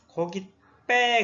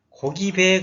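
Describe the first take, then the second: First: The b sound is tensed and hard. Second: The b sound is plain and soft. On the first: The speaker calls it right. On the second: The speaker calls it wrong.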